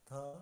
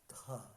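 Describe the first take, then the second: First: The t is soft, with no puff of air. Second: The t is followed by a puff of air.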